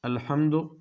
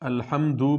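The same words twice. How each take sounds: First: The final vowel is short. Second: The final vowel is drawn out long. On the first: The speaker calls it right. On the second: The speaker calls it wrong.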